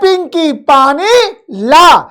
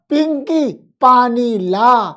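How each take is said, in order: First: It is said loudly with strong force. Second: It is said softly with little force. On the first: A strong young man is asking for water. "तेज बोली" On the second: A very old, weak man is asking for water. "वह धीरे बोलेगा"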